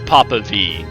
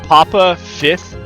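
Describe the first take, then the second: First: The V is spoken as the letter name. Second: The V is spoken as the word fifth. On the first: The speaker calls it right. "but it's it's Papa V" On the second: The speaker calls it wrong. "I thought it would be"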